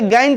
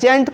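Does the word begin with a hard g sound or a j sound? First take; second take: hard g; j sound. First: The word begins with a hard g sound. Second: The word begins with a j sound. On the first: The speaker calls it wrong. "इसे गैंट नहीं पढ़ना है" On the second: The speaker calls it right. "इसे क्या पढ़ना है? जेंट पढ़ना है"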